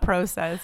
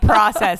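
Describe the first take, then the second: First: It is said with a Canadian pronunciation. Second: It is said with an American pronunciation. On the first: The speaker calls it wrong. "and not process" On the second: The speaker calls it right. "code switch up my language and say process"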